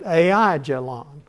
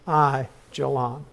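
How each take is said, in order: First: The first syllable has a plain single vowel. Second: The first syllable has a gliding diphthong. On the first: The speaker calls it wrong. "You might have read it" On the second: The speaker calls it right. "they pronounce it, it's a diphthong, A I"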